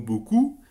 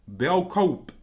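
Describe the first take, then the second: First: It is said with the usual French pronunciation. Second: It is said sounding out the written letters. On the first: "un Géorgien qui découvre le mot beaucoup" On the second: "il va dire Beaukaup"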